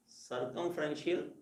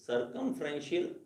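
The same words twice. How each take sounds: First: सर्कमफ्रेंशियल said slowly and softly, syllable by syllable; teacher drilling सर्कमफ्रेंशियल slowly and softly; slow spelled-out word. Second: Said in the usual way. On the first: Shown as a demonstration. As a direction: break सर्कमफ्रेंशियल into careful slow syllables for students. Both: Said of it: "इसको ऐसे क्या बना सकते हो आप".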